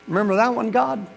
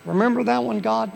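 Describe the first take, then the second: First: High, loud plea; plea to God to remember his promise; preaching. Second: High, pleading reminder; plea to God to remember his promise; reminding God. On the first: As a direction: call it out to heaven. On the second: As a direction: nudge God like an old friend. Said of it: "Remind him". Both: Acted.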